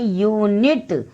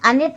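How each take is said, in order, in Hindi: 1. शब्द की शुरुआत 'y' ध्वनि से होती है। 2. शब्द की शुरुआत साधारण स्वर ध्वनि से होती है। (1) "इसको बोलते हैं यूनिट" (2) "अनिट नहीं बोल रहे हैं"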